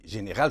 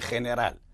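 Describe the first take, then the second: First: The g is a soft French zh sound. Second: The g is a rough throaty Spanish sound.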